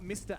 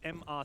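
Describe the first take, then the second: First: It is said as the word mister. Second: It is said as two separate letters. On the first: The speaker calls it wrong. "It's not mister at all" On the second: The speaker calls it right. "They spell out the letters"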